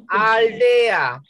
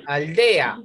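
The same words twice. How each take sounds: First: Aldea stretched as al-de-a, louder; drawn-out syllables. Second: Said in the usual way. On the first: Shown as a demonstration. Teacher repeats for class, aldea emphatically split al-de-a. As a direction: pull aldea apart so E and A separate.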